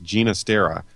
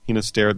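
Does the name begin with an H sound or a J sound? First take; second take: J sound; H sound. First: The name begins with a soft J sound. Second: The name begins with a breathy H sound. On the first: It follows the name's Italian origin. "apparently he is of Italian descent and wanted it to be pronounced Ginastera" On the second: It follows normal Spanish pronunciation. "the G is normally pronounced huh, like an H"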